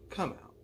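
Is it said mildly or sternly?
mildly. It is said mildly, without sternness.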